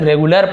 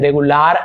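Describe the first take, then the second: First: The final syllable has a short, weak 'er' sound. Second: The final syllable has a long, full 'ar' sound. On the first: The speaker calls it right. "ज्यादातर हम उसे अर पढ़ते हैं, हम इसे रेगुलर पढ़ेंगे" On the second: The speaker calls it wrong. "रेगुलर ऐसे नहीं पढ़ेंगे"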